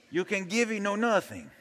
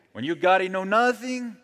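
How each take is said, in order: First: Put-on higher Mexican accent, softer; joking Mexican accent impression. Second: Put-on raised-pitch Mexican accent, higher; joking Mexican accent impression. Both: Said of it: "English in the Mexican accent".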